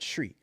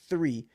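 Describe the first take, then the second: First: The word starts with a hard t sound. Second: The word starts with a soft th sound. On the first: "I gotta say fucking tree" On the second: "I can't say three"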